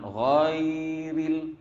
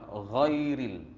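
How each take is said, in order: First: The word is said slowly and drawn out. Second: The word is said quickly and short. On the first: The speaker calls it wrong. "Jangan ghairil, sudah jadi mat ya" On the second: The speaker calls it right. "dikena baca cepat"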